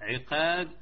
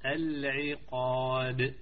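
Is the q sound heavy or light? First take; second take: light; heavy. First: The q sound is light and thin. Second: The q sound is heavy and full. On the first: The speaker calls it wrong. "لا خطأ" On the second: The speaker calls it right. "الحروف جن مفخمة"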